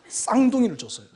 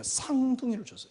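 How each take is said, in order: First: The word is said with strong, forceful emphasis. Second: The word is said with ordinary, light force. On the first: The speaker calls it right. "액센트를 좀 시게 하겠습니다" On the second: The speaker calls it wrong. "이 발음이 잘 안 되니까"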